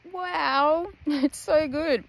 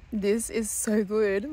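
First: Talking with a mouth full of food; chewing through the words. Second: Said in the usual way. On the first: Real, not acted. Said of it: "I had my mouth full". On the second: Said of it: "sorry, hang on".

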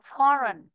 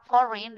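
First: "foreign" with a weaker vowel in the second syllable; "foreign" ending in -ren. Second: "foreign" with an i sound in the second syllable; "foreign" ending in -rin. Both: Shown as a demonstration. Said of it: "Đọc đọc foreign được foreign".

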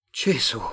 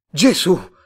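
First: Understated startled oath; restrained, short cry of surprise; milder exclamation. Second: Loud, high cry of shock; startled outburst; shocked exclamation. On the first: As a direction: exclaim it with a touch of shock. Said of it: "esclamò ancora Tomás". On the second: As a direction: blurt it out loudly, startled. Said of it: "esclamò Tomás". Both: A narrator's reading.

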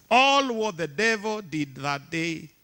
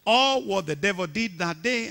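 First: All what the devil did that day, slowed with weight on "All"; emphatic and slow. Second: Said in the usual way. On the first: Shown as a demonstration. Preacher urging the congregation to remember, slow and weighty. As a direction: lean on "All" and draw the line out. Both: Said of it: "I want you to hear this".

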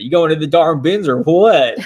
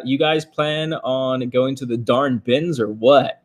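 First: Laughing mock country accent, louder; playful exaggerated country accent while laughing; hammed-up country accent. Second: Reading a chat question in a faint slow country drawl; hint of a rural country accent; slight country accent. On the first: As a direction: ham up a rural Southern country twang. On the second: Real, not acted. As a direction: let a little Southern country slip into the read. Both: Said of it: "I got kinda country when I said that".

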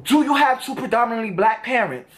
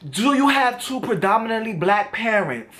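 First: Imitating the challenging question once more; a retold, hostile challenge; confrontational energy. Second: Imitating his pushy, challenging question; mock the combative tone he came with; a retold, hostile challenge; confrontational energy. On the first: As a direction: repeat his combative line with the same edge. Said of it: "He comes with this energy like". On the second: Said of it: "just like that too, with that energy".

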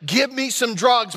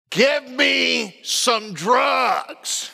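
First: Higher-pitched mock demand at normal pace; lightly voiced wife insisting on relief; imitated demanding wife. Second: Very slow, drawn-out possessed growl, imitated; mock gurgly voice. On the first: Wife in labor to her husband, lightly imitated demand. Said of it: "the voice that came out". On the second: Wife in labor to coaching husband, mock gurgly demon voice. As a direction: stretch every word like a hammed-up demon. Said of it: "It was a deep, gurgly voice".

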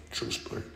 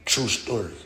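First: Breathless whispered aside. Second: Said in the usual way. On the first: Shown as a demonstration. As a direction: whisper it again to yourself.

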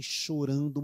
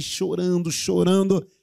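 First: Said in the usual way. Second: "chorando" pitched up and punched louder each time; emphatic repetition. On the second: Shown as a demonstration. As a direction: build on "chorando", higher and more forceful. Repeats the word to intensify it.

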